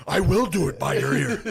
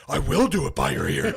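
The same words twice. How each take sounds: First: Higher, louder, laughing taunt; louder, higher laughing shout; playful mock yell through laughter. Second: Higher, louder teasing yell; a louder, higher hammed-up shout; playful mock yell. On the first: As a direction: tease him again while cracking up. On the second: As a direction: taunt the lineman gleefully. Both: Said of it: "He starts yelling".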